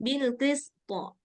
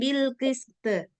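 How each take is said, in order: First: The final consonant echoes with a full o-like vowel. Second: The final consonant echoes with a light e-like vowel. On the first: It keeps the heavy letter's sound. The speaker calls it right. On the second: It sounds like a different, thinner letter. The speaker calls it wrong.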